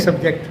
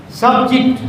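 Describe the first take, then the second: First: SUBJECT as "sub-JEKT", weight on the second syllable; habitual mispronounced stress. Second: SUBJECT as "SUB-jikt", higher on SUB; first-syllable stress. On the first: Teacher quoting how we say it, second-syllable stress. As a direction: say "subject" with a weak first syllable. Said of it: "We pronounce it as subject". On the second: Teacher showing the noun form, stressed on first syllable. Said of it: "stress is on the first syllable". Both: Shown as a demonstration.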